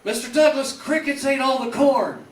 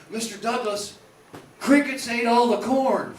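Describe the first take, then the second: First: High and loud, the line blurted out again; louder doofus retake. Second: Dim farmhand voice. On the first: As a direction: shout it higher after the crowd missed it. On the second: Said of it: "He would always say". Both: Retold or imitated.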